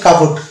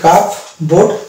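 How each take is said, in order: First: The p sound is silent in the middle. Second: The p sound is pronounced in the middle. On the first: The speaker calls it right. "এটা শুদ্ধ উচ্চারণ হচ্ছে" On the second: The speaker calls it wrong. "Wrong pronunciation হয়ে যাবে, ভুল উচ্চারণ হয়ে যাবে"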